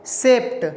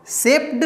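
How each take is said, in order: First: "सेप्ट" ending in a crisp T sound; ending read as T. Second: "सेप्ड" with a voiced D ending; ending read as D. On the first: Teacher models "सेप्ट" for learners, final T sound. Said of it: "डी को ड ना पढ़ के ट पढ़ेंगे". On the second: Teacher shows learners the rejected reading, "सेप्ड" with final D. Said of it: "सेप्ड नहीं पढ़ेंगे". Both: Shown as a demonstration.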